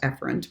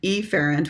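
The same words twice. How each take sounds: First: It is said in a natural, relaxed way. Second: It is said in an exaggerated, overly distinct way. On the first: The speaker calls it right. "which is actually pronounced efferent" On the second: The speaker calls it wrong. "I'm going to mispronounce them so you can hear the difference"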